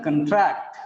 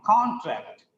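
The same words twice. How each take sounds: First: "contract" stressed on TRACT, first syllable weakened to "cun"; stress on second syllable. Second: "contract" stressed on CON, with a full "con"; stress on first syllable. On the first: Teacher showing the verb "contract", weak first syllable, strong TRACT. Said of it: "because the stress is on second syllable". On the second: Teacher showing the noun "contract", stress on CON. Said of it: "the first syllable becomes con". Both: Shown as a demonstration.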